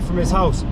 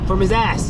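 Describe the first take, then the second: First: Spoken in the speaker's ordinary accent. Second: Spoken in a Cockney accent, dropping the h.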